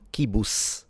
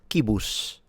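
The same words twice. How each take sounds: First: The final consonant is an s sound. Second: The final consonant is an sh sound. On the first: "not kibus" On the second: "it's a sh instead of s"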